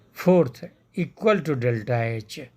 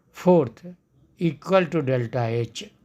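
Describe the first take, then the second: No difference in how they are said.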